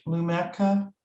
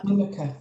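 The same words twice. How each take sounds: First: Lumeka with an "eh" in the middle; tentative pronunciation. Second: Lumika with a weak "uh" in the middle; corrected pronunciation. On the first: Host reading a question, unsure of the name: Lumeka as loo-MEK-uh. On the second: Host echoing the presenter's correction: Lumika as LOO-muh-kuh. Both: Real, not acted. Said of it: "Is that how I say it?".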